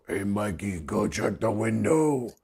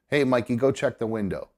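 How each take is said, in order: First: It is said in a weird, altered voice. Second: It is said in the speaker's normal voice. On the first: It sounds like a voice other than one's own. "a different voice go" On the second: It sounds like one's own inner voice. "normally you would hear your voice say"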